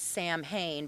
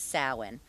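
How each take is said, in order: First: It sounds like the two words 'Sam Hain'. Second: It does not sound like 'Sam Hain'. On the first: The speaker calls it wrong. "it's written like it's Sam Hain" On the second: The speaker calls it right. "it's pronounced like it's Samhain"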